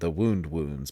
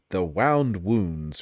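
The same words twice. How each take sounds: First: Wound is said like injury, rhyming with spooned. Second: Wound is said like coiled, rhyming with sound. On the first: The title refers to an injury. The speaker calls it wrong. "rather than" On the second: The title refers to tightly coiled threads. The speaker calls it right. "supposed to actually be"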